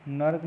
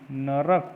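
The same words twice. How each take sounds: First: नर्क in one syllable, "nark"; no vowel after the r of नर्क; wrong form. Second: नरक in two beats, "na-rak"; नरक opened out as na-rak; correct form. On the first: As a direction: join r and k in नर्क. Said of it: "नहीं". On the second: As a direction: put a clear vowel after r in नरक. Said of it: "होता है". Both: Shown as a demonstration.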